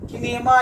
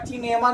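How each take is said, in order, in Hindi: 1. यह शब्द k ध्वनि से शुरू होता है। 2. यह शब्द ch ध्वनि से शुरू होता है। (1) "किनेमा या चिनेमा नहीं बोलते हैं" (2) "किनेमा या चिनेमा नहीं बोलते हैं"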